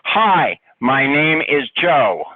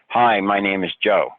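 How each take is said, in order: First: It is said loudly. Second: It is said at normal volume.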